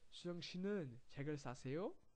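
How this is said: The voice rises at the end.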